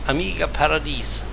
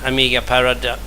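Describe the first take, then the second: First: It is said with a French accent. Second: It is said with an English accent. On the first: The speaker calls it right. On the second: The speaker calls it wrong.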